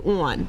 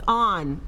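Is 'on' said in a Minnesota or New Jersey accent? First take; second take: New Jersey; Minnesota. First: It is said with a New Jersey accent. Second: It is said like 'lawn' without the L. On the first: The speaker calls it wrong. "I would say on. That's how people in New Jersey say on" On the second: The speaker calls it right. "Like lawn without the L?"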